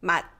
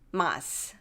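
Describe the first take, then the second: First: The word ends with an unreleased t sound. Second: The word ends with a released s sound. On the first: The speaker calls it right. "pronounced as the representative consonant 드" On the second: The speaker calls it wrong. "we're not saying mas"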